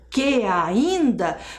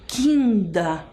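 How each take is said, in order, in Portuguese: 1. As duas vogais são ditas em sílabas separadas. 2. As duas vogais se juntam em uma só sílaba. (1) "Em vez de dizer que ainda" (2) "o som das vogais se aproximam para formar uma sílaba poética"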